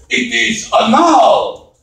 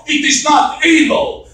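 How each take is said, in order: First: "anal" stressed on the second syllable, uh-NAHL, drawn out; mad correction. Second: "anal" said the English way, stress on the first syllable, higher; slow, indignant denial with "anal" as AY-nul; mad correction. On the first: Brother-in-law giving his name's right saying, mock mad. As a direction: slowly insist on "anal" as uh-NAHL. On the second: Brother-in-law rejecting the English saying of his name, mock mad. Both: Retold or imitated. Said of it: "he gets really mad at me".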